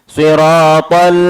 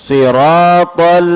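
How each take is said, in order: The two takes are said the same way.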